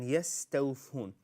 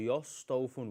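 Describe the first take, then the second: First: The s is light, with a thin mouth. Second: The s is heavy, with a full mouth. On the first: The speaker calls it right. "these are the whispering letters" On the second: The speaker calls it wrong. "or they would say يستوفون, which is wrong"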